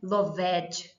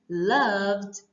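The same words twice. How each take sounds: First: The ending is said as an extra syllable. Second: The ending is said without a separate vowel. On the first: The speaker calls it wrong. "É por isso que não é loved" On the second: The speaker calls it right. "nós não pronunciamos o E nos verbos como os tais loved"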